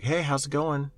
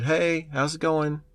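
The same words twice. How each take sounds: First: Lightly voiced stranger, a little higher; a hint of a creepy stranger's hello; creepy hacker greeting. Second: Slower, higher creepy stranger's hello; drawn-out fake friendly greeting; creepy hacker greeting. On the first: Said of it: "And they'll be like". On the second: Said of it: "guy came over the thing and said".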